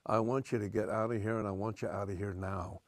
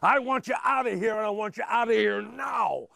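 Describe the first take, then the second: First: It is delivered plainly, like a TV actor. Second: It is delivered with big, exaggerated energy.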